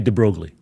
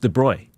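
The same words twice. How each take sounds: First: The name is said with an American pronunciation. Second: The name is said with a French pronunciation. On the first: "In America, we say de Broglie" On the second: "in French it's de Broglie"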